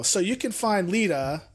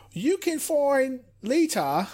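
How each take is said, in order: First: Said in the usual way. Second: Slow, higher, mock put-on accent of Lita's; a clumsy half-hearted try at Lita's accent; bad imitation of Lita's accent. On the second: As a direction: fumble through a bad copy of Lita's accent. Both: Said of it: "That's such a bad accent".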